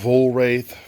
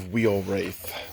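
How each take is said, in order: First: The first part sounds like 'vol'. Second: The first part sounds like 'wheel'. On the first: This is how others have said it. "Heard of Vol Wraith" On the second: This is how the speaker says it. "I go Wheel Wraith"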